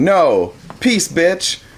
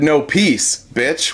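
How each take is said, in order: First: There is a pause after 'no'. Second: There is no pause after 'no'.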